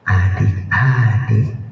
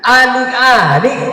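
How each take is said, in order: First: It is said in a quiet voice. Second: It is called out in a loud voice.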